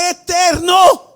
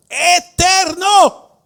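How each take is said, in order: First: High loud eterno, cue to repeat; congregation call. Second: High, slow, loud cry of eterno; shouted word. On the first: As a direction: shout eterno for them to echo. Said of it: "Diga la palabra". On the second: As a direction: ring out eterno high and long. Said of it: "Diga la palabra, eterno". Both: Shown as a demonstration.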